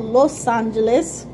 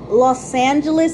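First: Los Angeles in Spanish, lohs AHN-heh-les. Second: Los Angeles with the English sounds, lohs AN-juh-lus; American English way. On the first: To viewers, the real name: Spanish Los Angeles. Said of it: "even though it's called". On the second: To viewers, the name as Americans say it: anglicized Los Angeles. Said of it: "as you guys call it". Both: Shown as a demonstration.

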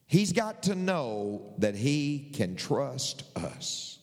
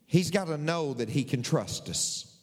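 First: Each word drawn out slowly and deliberately; slow, emphatic restatement. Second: Said in the usual way. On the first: Real, not acted. Preacher repeating the point to the congregation, slow and deliberate. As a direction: say it at half speed, spacing the words for weight.

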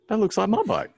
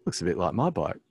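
First: High, louder jolt of recognition; alarmed realisation. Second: Said in the usual way. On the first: Retold or imitated. Man spots his own bike in the dark, alarmed realisation. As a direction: voice leaps up as it dawns on you.

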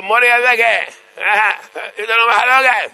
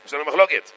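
First: Put-on high, loud call to the old rabbi; mock urgent shouting. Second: Said in the usual way. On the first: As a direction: plead the dispute at the top of your voice. Congregants calling out to old rabbi.

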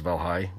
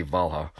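First: Valhai with a clear final i like eye; proper pronunciation. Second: Valha said as VAL-hah, ending on an open ah; his own way. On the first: Correcting himself to the proper Valhai for the listeners. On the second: His habit, the Valha he always says, spoken casually. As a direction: Valha with a plain ah at the end, no final i. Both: Shown as a demonstration. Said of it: "I think it's pronounced Valhai".

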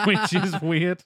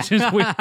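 First: Slow, laughing through it. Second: High and loud, surprised; loud exclamation. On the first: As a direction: laugh while repeating it. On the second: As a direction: blurt it out loud. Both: Real, not acted.

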